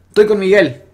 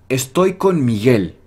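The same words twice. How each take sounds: First: The first syllable of the first word is dropped. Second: The first word is said in full. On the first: The speaker calls it wrong. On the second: The speaker calls it right.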